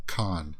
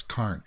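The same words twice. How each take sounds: First: Khan said with a short nasal a and no r, like khahn; the wrong way: Khan as khahn, no r sound; wrong pronunciation. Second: Karn said with a long a and a clear r, karrn, falling; the right way: Karn with the r sounded; correct pronunciation. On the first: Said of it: "not, not Khan". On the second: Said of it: "so it's Karn". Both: Shown as a demonstration.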